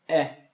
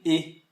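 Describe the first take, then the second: First: The vowel is said open, like a wide e. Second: The vowel is said closed, like a tight e. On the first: Most French speakers say it this way. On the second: Some speakers in parts of France say it this way. "eles pronunciam às vezes fechado"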